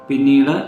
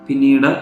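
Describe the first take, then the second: No difference in how they are said.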